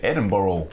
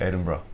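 First: The name ends in a full 'burg' sound. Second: The name ends in a short 'bruh' sound. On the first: "Americans say Edinburgh" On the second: "Say it's brah"

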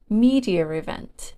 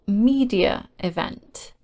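First: An extra r sound links the words. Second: No extra sound links the two words.

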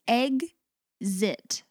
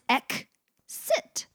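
First: The x is voiced, sounding like gz. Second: The x is voiceless, sounding like ks. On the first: "the first one is egg-zit" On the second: "Second one is ek-sit"

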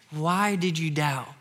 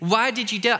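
First: It is said as a gentle, friendly question. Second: It is said as a harsh rebuke.

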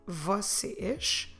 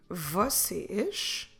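No difference in how they are said.

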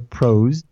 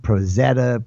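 First: The Z blends into one syllable. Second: The Z is said as zeta. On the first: This is how it is said in the States and internally. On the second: This is another way some people across the pond say it.

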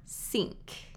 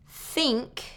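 First: The word begins with an S sound. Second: The word begins with a voiceless TH sound. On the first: The speaker calls it wrong. "I hear tink or sink" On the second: The speaker calls it right. "is voiceless at the beginning of the word"

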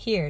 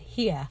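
First: It is said in a plain, neutral accent. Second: It is said in a Southern US accent. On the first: "Instead of saying "here,"" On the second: "she said "here.""

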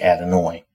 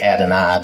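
First: The final syllable has no long I sound. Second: The final syllable has a long I sound. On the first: The speaker calls it wrong. "They don't say Adonai" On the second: The speaker calls it right. "they say Adonai"

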